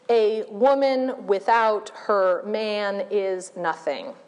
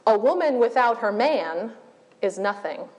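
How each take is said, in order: First: It is read flatly with no pauses. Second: It is read with pauses breaking the phrases. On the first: The sentence has no punctuation yet. "completely without punctuation or inflection" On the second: Commas have been added to the sentence. "places commas such that the sentence reads"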